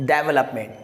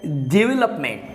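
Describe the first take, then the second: First: डेवलपमेंट stressed at the front, DEV-lup-ment; wrong pronunciation. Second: डेवलपमेंट as di-VEL-up-ment; correct pronunciation. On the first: Teacher shows what people often say, front-stressed DEV-lup-ment. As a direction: start डेवलपमेंट with a full DEV. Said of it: "जो कि बिल्कुल wrong है". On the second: Teacher models the right sound for learners, di-VEL-up-ment. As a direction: start डेवलपमेंट with short di, then lean on VEL. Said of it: "इसको बोला जाता है". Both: Shown as a demonstration.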